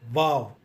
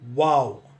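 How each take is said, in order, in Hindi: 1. यह शब्द होंठ-दांत वाली V ध्वनि से शुरू होता है। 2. यह शब्द गोल होंठों वाली W ध्वनि से शुरू होता है। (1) "pronounced as V A W" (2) "the way we pronounce W O W"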